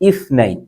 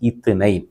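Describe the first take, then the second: First: The middle consonant uses the tongue between teeth. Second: The middle consonant is a plain t sound. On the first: The speaker calls it right. "ശരിക്കും പറയുക, ഇസ്നൈൻ" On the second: The speaker calls it wrong. "പലരും പറയുന്നതാണ് ഇത്നൈൻ"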